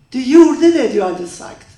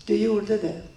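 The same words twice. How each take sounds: First: Loud, raised-pitch accusation, ex-husband's voice; accusing shout. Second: Said in the usual way. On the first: Retold or imitated. Ex-husband yelling at Maria in the car, accusing shout. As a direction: hurl it at her as an accusation.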